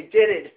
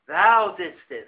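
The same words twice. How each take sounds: First: Said in the usual way. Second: "Thou didst it." said slowly and deliberately, every word weighted; solemn, measured "Thou didst it."; slow, weighty reading. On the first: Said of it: "we say". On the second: Shown as a demonstration. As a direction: lean on "Thou" and draw out "Thou didst it.". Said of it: "we don't say".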